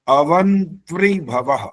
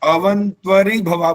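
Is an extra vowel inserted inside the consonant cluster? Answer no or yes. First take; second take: no; yes. First: The cluster is said tightly, with no extra vowel. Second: An extra vowel breaks up the consonant cluster. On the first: The speaker calls it right. "ये सुनो कैसे बड़ा कठिन है ये।" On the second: The speaker calls it wrong. "ज्यादातर पंडित लोग भी क्या बोलते हैं"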